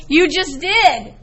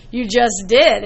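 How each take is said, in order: First: "You just did" slowed, DID landed with a falling close; slow pointed comeback. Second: Said in the usual way. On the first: Shown as a demonstration. Teacher tells the doubtful kid he already used it, slow emphatic "You just did". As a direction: drive it home to the doubting student, slow and pointed. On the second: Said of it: "And I went".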